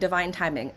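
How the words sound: It is said in a light, airy, mocking way. The idea is vague and not taken seriously. The speaker calls it wrong. "I don't say that like, ooh, fluffy"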